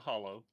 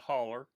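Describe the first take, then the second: First: The word ends with an 'oh' sound. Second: The word ends with an 'er' sound. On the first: This is the outside, non-local way to say it. The speaker calls it wrong. "It's not a hollow" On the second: This is how people say it locally. The speaker calls it right. "It's a holler"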